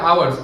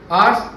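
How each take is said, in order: First: It is said with two syllables, like 'ow-ers'. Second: It is said with one syllable, like 'ars'. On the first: The speaker calls it wrong. "लोग क्या बोलते हैं? आवर्स. आवर्स नहीं होता" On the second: The speaker calls it right. "It's आर्स"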